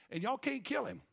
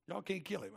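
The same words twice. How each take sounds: First: "kill" hit higher and harder; emphatic. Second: Said in the usual way. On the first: Acted. God challenging puny humans, "kill" stressed high. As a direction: punch the word "kill". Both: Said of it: "God goes like".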